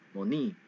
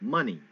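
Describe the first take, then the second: First: The stress is on the second syllable. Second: The stress is on the first syllable. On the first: The speaker calls it wrong. "rising up on the wrong um, syllable" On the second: The speaker calls it right. "rise up on the on the front"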